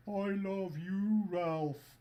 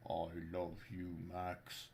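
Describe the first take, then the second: First: Much higher, louder, very slow Scandinavian voice; high Scandinavian accent. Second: Lower, softer, slow Scandinavian voice; tender, low Nordic lilt; low Scandinavian accent. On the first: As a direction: gush it high in a Nordic lilt. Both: Pretend. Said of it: "that's why I'm doing the Scandinavian accent".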